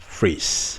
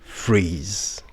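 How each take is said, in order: First: The word ends with a voiceless s sound. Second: The word ends with a voiced z sound. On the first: The speaker calls it wrong. "you've been pronouncing it wrong" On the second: The speaker calls it right. "the correct pronunciation is phrase"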